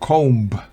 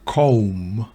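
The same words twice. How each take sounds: First: The b sound is pronounced. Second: The b sound is silent. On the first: The speaker calls it wrong. "no comb" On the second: The speaker calls it right. "B es muda en la palabra comb"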